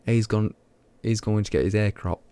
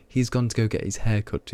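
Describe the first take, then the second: First: Local British accent with the h dropped in "hair"; own regional accent. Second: Said in the usual way. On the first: Shown as a demonstration. Streamer showing how locals say haircut, regional accent. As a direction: say "hair cropped" in broad dialect, h-less. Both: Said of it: "is how you, how we just say it".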